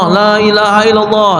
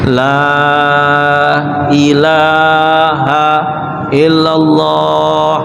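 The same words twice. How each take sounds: First: The phrase is said quickly and hurriedly. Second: The phrase is said slowly and calmly. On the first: The speaker calls it wrong. "bukan ngebut-ngebut" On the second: The speaker calls it right.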